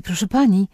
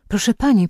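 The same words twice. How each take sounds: First: Mild repeated call to the neighbour; calling again. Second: First call, raised a little in pitch; mild call across the porch. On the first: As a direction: repeat the call, less lifted. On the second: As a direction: call after the neighbour, half-raised. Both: A narrator's reading. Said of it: "zawołała".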